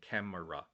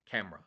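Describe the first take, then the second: First: The word is said with three syllables. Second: The word is said with two syllables. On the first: The speaker calls it wrong. "Three syllables. It's wrong" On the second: The speaker calls it right. "It's camera, camera, right?"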